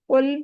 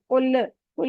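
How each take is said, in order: First: The final L ends smoothly without echo. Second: The final L has an extra bouncing echo. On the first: The speaker calls it right. "लाम पे कलकला नहीं होता" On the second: The speaker calls it wrong. "लाम पे कलकला नहीं करना, कुल कुल नहीं कहना"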